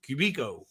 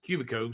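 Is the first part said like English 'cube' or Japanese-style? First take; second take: Japanese-style; cube-like. First: The word is said with Japanese-style vowels. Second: The first part sounds like the English word cube. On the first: "like like it's a Japanese pronunciation" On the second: "I'm saying Cubico because it's kind of cube shaped"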